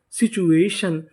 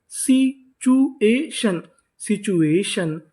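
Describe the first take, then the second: First: Said in the usual way. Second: situation stretched out very slowly, sound by sound; slow demo. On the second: Shown as a demonstration. Teacher slowly sounding out situation for the class. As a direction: spell out situation slowly for students. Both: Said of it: "तो इतनी meaning क्या बनी?".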